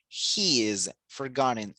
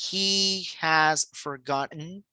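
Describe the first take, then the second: First: Has is reduced and joined onto he. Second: Has is said as a full separate word. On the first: The speaker calls it right. "una contracción o una reducción" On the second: The speaker calls it wrong. "no decimos he has forgotten"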